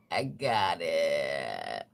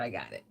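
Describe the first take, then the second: First: Very slow, low, stretched-out groan; drawn-out repeat. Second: Said in the usual way. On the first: Pretend. Joking after clearing a rough throat, drawn-out groan. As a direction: drag out each word way down low.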